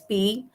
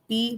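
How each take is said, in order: First: The pitch falls and then rises. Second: The pitch stays level in the middle. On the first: It means again. "falling rising" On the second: It means grind.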